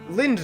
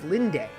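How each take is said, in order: First: The name ends without a final vowel sound. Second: The name ends with a pronounced final vowel. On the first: The speaker calls it wrong. "I want to get this right" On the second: The speaker calls it right. "they do pronounce the E. Okay, so it's Linde"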